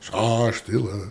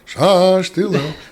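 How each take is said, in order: First: It is said at the softest volume. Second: It is said at a louder volume. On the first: "each time he says, raise your voice" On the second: "raise your voice"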